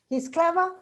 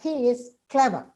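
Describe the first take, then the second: First: The pitch rises at the end. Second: The pitch falls at the end. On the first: It is a question. "it becomes my question" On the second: It is a plain statement. "With a falling means it's a statement"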